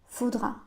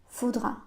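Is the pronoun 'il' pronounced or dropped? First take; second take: dropped; dropped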